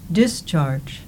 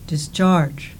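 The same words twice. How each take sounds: First: The stress is on the first syllable. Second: The stress is on the second syllable. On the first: "The first words in the pairs have their stress on the first syllable" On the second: "The second words in the pairs have their stress on the second syllable"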